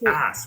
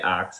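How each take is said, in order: First: The s sound comes before the k. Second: The k sound comes before the s. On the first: The speaker calls it right. "It's ask" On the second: The speaker calls it wrong. "Don't say axe"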